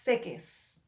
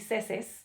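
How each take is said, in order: First: The middle consonant is a k sound. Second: The middle consonant is an s sound. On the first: The speaker calls it right. "We want to keep that k, k sound" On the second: The speaker calls it wrong. "I cannot put a C in there, okay, because that would be seses"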